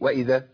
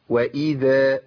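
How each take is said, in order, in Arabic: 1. الكسرة بعد الهمزة مختلسة. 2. الكسرة بعد الهمزة تامة. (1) "أنا ما حققتش الكسر" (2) "القارئ يحقق كسر الهمزة"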